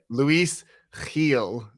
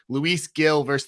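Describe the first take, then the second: First: The name is said with Spanish sounds. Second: The name is said with plain English sounds.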